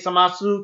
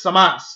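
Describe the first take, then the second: First: The word ends with an audible final u vowel. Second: The word ends on s with no final vowel. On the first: The speaker calls it wrong. "I did say samasu" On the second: The speaker calls it right. "it's just samas"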